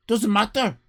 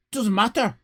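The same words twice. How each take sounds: The two takes are said the same way.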